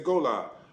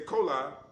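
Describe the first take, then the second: First: The word begins with a G sound. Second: The word begins with a K sound. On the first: This is the other language's form. "in the other language it would say gola" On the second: This is the Mandingo form. "the Mandingos might say cola"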